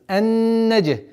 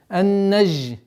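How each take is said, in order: First: The consonant is a hard explosive dj sound. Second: The consonant is a soft hissing zh sound. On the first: The speaker calls it right. "наоборот, полная противоположность, взрывность" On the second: The speaker calls it wrong. "Ни в коем случае она не должна звучать как ж"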